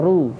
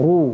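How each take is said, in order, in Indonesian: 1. Vokalnya diucapkan dengan bibir santai, tidak dimonyongkan. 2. Vokalnya diucapkan dengan bibir dimonyongkan ke depan. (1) "tapi ru" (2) "tidak perlu monyong ru gitu"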